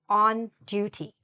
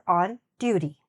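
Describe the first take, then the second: First: The t in duty is clearly pronounced. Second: The t in duty is softened, not fully pronounced. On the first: "depends if you pronounce the T" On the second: "or not"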